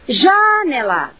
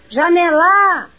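First: The stress is on the first syllable. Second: The stress is on the third syllable. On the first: "Comecem colocando todo o peso da voz na primeira sílaba" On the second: "por fim, na terceira"

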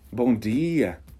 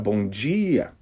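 First: The d in dia is a plain hard d. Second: The d in dia sounds like a j. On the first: It is the Pernambuco regional way. The speaker calls it right. "o perfeito seria um D lá do interior de Pernambuco" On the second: It is the Brasília regional way. The speaker calls it wrong. "eu sou de Brasília e dia, eu diria, do jeito que eu acabei de falar agora"

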